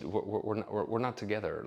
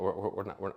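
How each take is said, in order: First: Awkward halting "we're, we're, we're"; stammering hedge. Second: Awkward halting "we're, we're"; stammering hedge. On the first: Telling the roommate they're not a couple, stammering. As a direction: trip over the words to soften it. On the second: Re-enacting his line to her, halting stammer. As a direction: stall nervously on each "we're". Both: Retold or imitated. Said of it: "Like, I said it like that".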